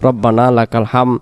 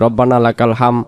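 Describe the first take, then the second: First: The final d sound is dropped. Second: The same.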